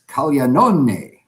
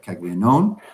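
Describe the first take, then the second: First: The final vowel is pronounced. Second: The final vowel is left silent. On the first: The speaker calls it right. "is the correct pronunciation" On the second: The speaker calls it wrong. "they say you don't pronounce it"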